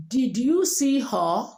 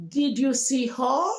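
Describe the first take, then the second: First: Slow Nigerian question, peak on "you"; typical Nigerian accent. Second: Native-speaker question sweeping up on "her"; native English speaker accent. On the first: Teacher shows asking as a Nigerian, Nigerian accent. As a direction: Nigerian accent, dip on "her". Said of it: "You want to ask as Nigerian". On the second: Teacher models asking as a native speaker, rising native accent. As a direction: native English intonation, climb high on "her". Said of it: "As a native speaker". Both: Shown as a demonstration.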